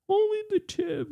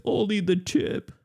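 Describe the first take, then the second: First: Very high squeak. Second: High squeaky voice. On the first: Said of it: "repeats much higher". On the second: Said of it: "repeats with rising pitch". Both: Pretend.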